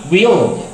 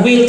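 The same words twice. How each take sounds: First: WILL said as "wee-ol"; WILL with a long ee before the l; contraction we'll. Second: Said in the usual way. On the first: Shown as a demonstration. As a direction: stretch WILL into a gliding "wi-ol". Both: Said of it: "bukan will tapi will".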